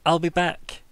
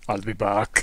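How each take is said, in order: First: Put-on Austrian accent. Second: Exaggerated Austrian accent, laughing. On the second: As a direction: say it like Arnold Schwarzenegger. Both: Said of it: "Did he say that in an Austrian accent".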